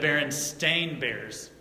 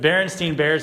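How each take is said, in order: First: The name's last syllable is said like 'stain'. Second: The name's last syllable is said like 'stein'. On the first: The speaker calls it right. "It's spelled right here. S T A I N" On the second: The speaker calls it wrong. "we've all been pronouncing it wrong this whole time"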